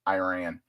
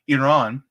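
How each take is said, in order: First: Iran is said with an American pronunciation. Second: Iran is said with a non-American pronunciation. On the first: The speaker calls it wrong. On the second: The speaker calls it right.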